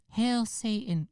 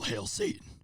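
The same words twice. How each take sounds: First: It sounds like a teenager seeking attention. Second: It sounds threatening and scary. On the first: The speaker is just trying to shock people. "like a a fifteen-year-old kid trying to disappoint his parents" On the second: The speaker is genuinely dangerous. "If he said it like that, ... maybe then I would have been a little scared of him"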